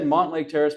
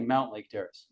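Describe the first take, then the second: First: The first syllable sounds like 'mont'. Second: The first syllable sounds like 'mount'. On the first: The speaker calls it wrong. "I've said Montlake Terrace my whole life" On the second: The speaker calls it right. "It's actually Mount Lake Terrace"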